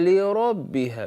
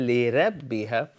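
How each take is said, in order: First: The R sound is heavy and full-mouthed. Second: The R sound is thin and light. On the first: The speaker calls it right. "We say" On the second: The speaker calls it wrong. "We don't say"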